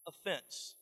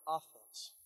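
First: "offense" said with stress on the first syllable, OF-fense; one pronunciation. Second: "offense" said with stress on the second syllable, of-FENSE; other pronunciation. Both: Shown as a demonstration. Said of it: "or offense".

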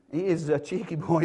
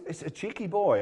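First: "is" pushed a little harder than the rest; stress on is. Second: Said in the usual way. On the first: Shown as a demonstration. Preacher insists Abraham "is" cheeky, stressing is. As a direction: lean on "is" to insist.

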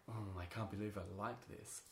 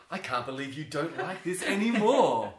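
First: Subdued, softer mock disbelief; quietly disown an old favourite, as someone else; imitating disenchanted adults. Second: Loud, high, incredulous protest; hammed-up indignation, climbing and stretched at the end; mock outrage. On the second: His outraged comeback to adults.

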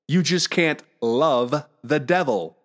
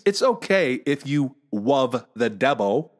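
First: "love" slowly with a clear L, "devil" with a clear V; correct L sound. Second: "love" as "wuv", "devil" as "debbo", slowly; slowly mock the baby talk, W for the L in "love"; mimicked speech impediment. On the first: Retold or imitated. Dad correcting his son, "love" with a deliberate L. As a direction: spell out "love the devil" slowly, every consonant precise. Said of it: "How do I make that L sound?". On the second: Dad teasing his son, "love the devil" as "wuv de debbo". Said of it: "I made fun of him".

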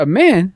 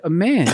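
First: Loud, high echoed question; imitated shocked mom; incredulous mother. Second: Said in the usual way. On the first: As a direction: throw it back in disbelief. Mother's disbelieving echo, acted.

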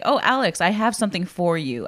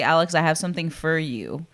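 First: FOR said in full, rhyming with "more"; full "or" vowel. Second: FOR said as "fur"; reduced "fur" vowel. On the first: Showing friend the unused way, full "or" in FOR. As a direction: give FOR its whole "or" sound. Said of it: "I don't say "for". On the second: Showing friend her own inflection, FOR reduced to "fur". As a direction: drop the O in FOR, rhyme it with "her". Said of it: "I dropped the O and put an E in there". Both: Shown as a demonstration.

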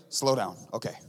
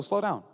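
First: Slowed-down demo. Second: Said in the usual way. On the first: Shown as a demonstration. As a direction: show them what slowing down sounds like. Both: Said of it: "this is the move".

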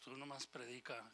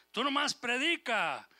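First: Much softer, lower repeat of the order; God repeating the order to Ezekiel, hushed; hushed command. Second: Loud, higher, slow command; God ordering Ezekiel, loud and slow; forceful command. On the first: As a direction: drop to a near hush. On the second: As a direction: thunder it out like God's order. God's command to Ezekiel, preaching. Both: Acted.

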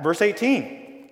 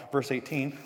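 First: "Verse eighteen" drawn out slowly with weight on "eighteen"; slow down and land "eighteen"; emphatic. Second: Said in the usual way. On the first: Shown as a demonstration. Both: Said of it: "I told you that's where this sermon will come from".

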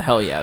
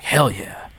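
First: Said in the usual way. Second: "Hell yeah" in a breathy whisper. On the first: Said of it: "He's so enthusiastic". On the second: Retold or imitated. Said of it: "He's like".

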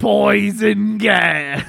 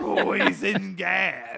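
First: Slow, drawn-out shout; mock shout. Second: Slow drawn-out shout; mock shout echo. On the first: Friend yells the fart joke, slow mock shout. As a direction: boom it out slowly like a movie title. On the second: Buddy echoes the joke, slow mock shout. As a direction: echo it back, big and slow.

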